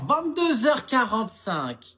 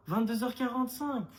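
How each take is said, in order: First: Vingt-deux heures quarante-cinq said slow, louder and higher, each word hammered; mother laying down the curfew, loud and slow; spelled out slowly. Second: Said in the usual way. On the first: Acted. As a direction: repeat the time slowly and firmly for someone dim. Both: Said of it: "Qu'est-ce que t'as pas compris?".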